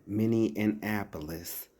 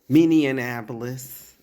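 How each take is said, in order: First: Minneapolis said slowly with an extra n, Minne-an-apolis; slow Minneanapolis; careful pronunciation. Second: Minneapolis stretched out slowly and louder as Minne-an-apolis; emphatic slow Minneanapolis; slow louder pronunciation. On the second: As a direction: spell Minneapolis out loud slowly. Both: Shown as a demonstration. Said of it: "it's Minneapolis".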